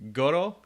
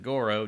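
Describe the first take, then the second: First: The R sounds like a mix of D and L. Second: The R is an American English R. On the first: "the R is kind of like a D and a L like mixed together" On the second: "if you're a goddamn American, it's you'd pronounce it Goro"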